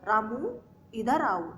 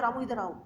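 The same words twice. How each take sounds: First: There is a short pause after the name. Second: The words run together with no pause. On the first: The speaker calls it right. "Ramu मतलब थोड़ा रुकना पड़ेगा" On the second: The speaker calls it wrong. "एक साथ नहीं बोल सकते"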